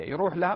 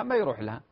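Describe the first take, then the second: First: يروح لها with a high rise on لها; rising question. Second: ما stressed, falling on ما يروح لها; firm answer. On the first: Sheikh asks his listeners يروح لها with a rising question. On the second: Sheikh answers himself, stressing ما. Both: Shown as a demonstration.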